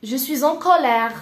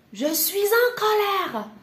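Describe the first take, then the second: First: Loud, emphatic teaching delivery; firm acted anger. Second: High-pitched mock outburst; hammed-up anger. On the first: French teacher modelling the anger phrase, firmly and loudly. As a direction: state it forcefully, with measured anger. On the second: French teacher acting out being in anger, high and indignant. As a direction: throw an exaggerated fit of temper, pitched high. Heightened take of anger phrase. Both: Shown as a demonstration.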